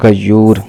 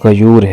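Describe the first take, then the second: First: The 'y' sound is doubled. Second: The 'y' sound is single. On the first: The speaker calls it wrong. "लफ्ज़ गयूर या पर तशदीद के साथ नहीं है" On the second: The speaker calls it right. "दुरुस्त लफ्ज़ गयूर है"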